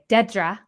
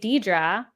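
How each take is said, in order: First: The name is pronounced like Dedra. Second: The name is pronounced like Deidre. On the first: The speaker calls it right. "or excuse me" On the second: The speaker calls it wrong. "I got in trouble for saying it that way"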